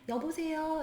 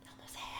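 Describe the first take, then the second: First: It is said fairly loudly. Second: It is said quietly.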